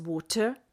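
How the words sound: The T is pronounced crisp and hard. "a brit angol a T hangokat sokkal keményebben, T-sebben ejti"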